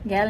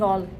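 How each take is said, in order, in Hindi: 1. स्वर छोटा और आगे का है, जैसे cat में। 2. स्वर गोल और पीछे का है, जैसे call में। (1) "इंग्लिश में बोलते हैं गैल / गैल नहीं" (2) "गैल नहीं गॉल"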